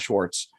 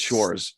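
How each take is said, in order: First: A t sound comes before the final s. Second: No t sound comes before the final s. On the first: The speaker calls it wrong. "There's no T in it, by the way. It's not Schwartz" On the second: The speaker calls it right. "It's Schwarz"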